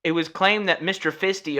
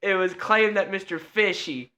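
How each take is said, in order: First: "Fisty" misread with a T sound; mispronounced name. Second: "Fishy" with a sh sound; corrected name. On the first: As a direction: read "Fisty" with st in the middle. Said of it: "I said it wrong". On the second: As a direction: read "Fishy" with sh, no T. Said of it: "I called him Mister Fisty". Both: Real, not acted.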